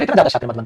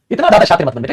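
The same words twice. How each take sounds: First: Half-muttered playful scolding; softer repeat. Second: Said in the usual way. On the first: Shown as a demonstration. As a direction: lower and softer, teasing aside. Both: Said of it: "repeated softer".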